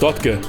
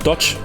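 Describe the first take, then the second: First: The name is said with German-style pronunciation. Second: The name is said with English pronunciation. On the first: The speaker deliberately refuses to say it correctly. The speaker calls it wrong. "We will simply refuse to say it correctly" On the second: This is the correct way to say it. The speaker calls it right. "it's not Dutch"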